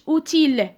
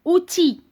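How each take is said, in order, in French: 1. Le son L final est prononcé. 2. Le son L final est muet. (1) "ما قلتش outil" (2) "هنا L muet"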